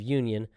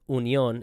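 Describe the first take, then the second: First: It is said with an American pronunciation. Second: It is said with a German pronunciation. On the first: The speaker calls it wrong. "instead of Union" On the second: The speaker calls it right. "it's said pronounced Union"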